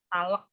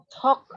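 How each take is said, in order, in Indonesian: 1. L-nya dibaca, ada vokal tambahan. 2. L-nya tidak dibaca, tanpa vokal tambahan. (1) "L-nya jangan dibaca, jangan talak" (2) "Talk bacanya"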